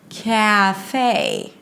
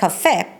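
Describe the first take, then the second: First: The syllables are stretched out slowly. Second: The syllables are short and quick. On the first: The speaker calls it right. "It's like you're saying it in slow motion" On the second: The speaker calls it wrong. "the way you say it in your own language"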